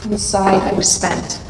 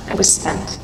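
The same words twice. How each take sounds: First: Said in the usual way. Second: Breathy whisper of exhaustion; whispered, utterly drained; whispered echo. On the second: Real, not acted. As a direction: let the words fall to a whisper. Repeated as a whisper.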